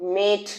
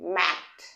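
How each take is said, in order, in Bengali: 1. স্বরধ্বনিটি হলো 'e', যেমন 'bed' শব্দে। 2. স্বরধ্বনিটি হলো খোলা 'a', যেমন 'cat' শব্দে। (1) "মেট না, এ না।" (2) "তাই তো?"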